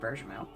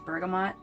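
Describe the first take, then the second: First: The word is pronounced the French way. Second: The word is pronounced the English way. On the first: "the French pronunciation" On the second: "The English pronunciation is bergamot"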